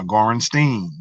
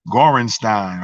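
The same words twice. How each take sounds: First: Gorenstein, last syllable rhyming with "green"; Gorenstein ending in "steen". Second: Gorenstein, last syllable rhyming with "line"; Gorenstein ending in "stine". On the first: Alternative reading of the same surname. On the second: Offers two readings of a surname. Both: Real, not acted.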